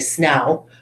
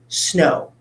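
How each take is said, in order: First: The vowel sounds like 'ow' as in cow. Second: The vowel sounds like a long O. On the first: The speaker calls it wrong. "not going ow. I don't say snow" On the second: The speaker calls it right. "it's making its second sound"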